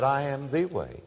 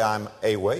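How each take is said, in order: First: "the" leaned on, said clearly as thee; the way, with weight on "the"; stress on THE. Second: Said in the usual way. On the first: Shown as a demonstration. Preacher correcting a misquote, stress on the. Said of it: "He said". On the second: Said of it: "Jesus didn't say".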